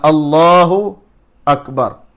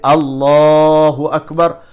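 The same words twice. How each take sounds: First: A short pause separates Allahu and Akbar. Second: It is said without a pause between words.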